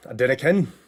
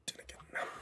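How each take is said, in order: First: Louder, falling on again; punchy catchphrase. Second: Breathy whisper of the catchphrase. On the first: Streamer repeating the line, now out loud. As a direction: announce it with a punch. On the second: Repeating the line, first as a whisper. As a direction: whisper it to yourself. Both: Shown as a demonstration.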